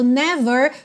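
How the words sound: It has an American accent with a final R.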